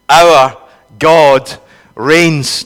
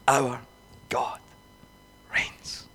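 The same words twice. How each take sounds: First: It is said in a raised, loud voice. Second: It is said in a lowered, quiet voice.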